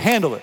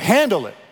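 First: It is said in a plain, neutral way. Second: It is said with a sassy, attitude-filled tone. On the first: "I want you to say that with me" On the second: "say it with some sass"

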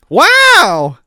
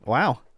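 First: It is said with more energy. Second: It is said flatly, with little energy.

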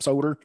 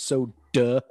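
First: The word ends with an added r sound. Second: The word ends in a stressed open vowel. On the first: The speaker calls it wrong. "there's no R at the end of that word" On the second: The speaker calls it right. "I'm going to emphasize the duh because you're saying it wrong"

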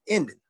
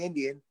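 First: The word is clipped to two syllables. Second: The word is said in full, three syllables. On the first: "We say Indian. N-D-N" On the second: "we don't say Indian"

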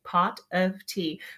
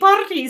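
First: The phrase is said at a slow, careful pace. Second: The phrase is said very quickly, running together. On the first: "this is how you practice when you can't say your R's" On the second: "you have to say it faster and faster and faster"

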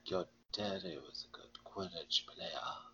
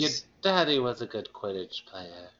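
First: It is said in a suggestive, flirtatious way. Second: It is said in a plain, matter-of-fact way.

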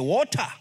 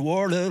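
First: It is said with a foreign accent. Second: It is an attempt at an American accent.

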